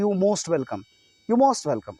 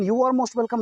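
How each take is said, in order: First: "You most welcome" with "are" swallowed; dropped "are". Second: "You are most welcome" with every word sounded; higher pitch, sound the "are" between You and most; fully pronounced "are". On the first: Teacher quoting own greeting, "are" left silent. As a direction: run You straight into most. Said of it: "नहीं बोलते, बल्कि". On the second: Teacher showing what is not said, full "are". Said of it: "नहीं बोलते". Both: Shown as a demonstration.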